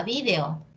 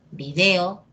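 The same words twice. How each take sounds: First: Video said VÍ-de-o; gringo pronunciation. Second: Video said vi-DE-o; Latin American stress. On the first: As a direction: stress the first I in video. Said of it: "la pronunciación gringa". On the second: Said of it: "Igual cuando dices". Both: Shown as a demonstration.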